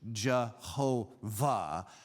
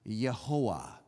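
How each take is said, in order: First: It begins with J and has a V. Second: It begins with Y and has no V. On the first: "we mispronounce it in English" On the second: "in most languages, you would pronounce this Yehoah"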